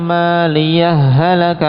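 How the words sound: The final h merges straight into halaka, doubled. "yang kedua idgham, langsung dimasukkan... di tasydid jadinya"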